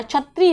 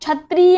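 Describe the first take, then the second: First: छत्री with aspirated chh, chhatri; छत्री, सही उच्चारण; correct pronunciation. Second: छत्री as chatree, said higher as the wrong form; छत्री, गलत रूप में; wrong pronunciation. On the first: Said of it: "छत्री होता है". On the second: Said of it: "छत्री नहीं होता है". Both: Shown as a demonstration.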